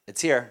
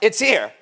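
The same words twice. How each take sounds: First: It is said in a casual, calm way. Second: It is said in an excited, dramatic way.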